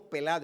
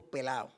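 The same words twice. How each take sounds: First: Said in the usual way. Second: "pelao" with the d dropped, Puerto Rican style; Puerto Rican pronunciation. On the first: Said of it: "Nosotros no decimos pelado". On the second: Shown as a demonstration. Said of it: "con acento".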